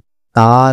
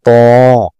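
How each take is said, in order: First: The syllable is light, with a thin a vowel. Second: The syllable is heavy, with a thick o-like vowel. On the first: The speaker calls it wrong. "ये ता नहीं है" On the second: The speaker calls it right. "इसको मोटा बोल्ड करके पढ़ना होता है"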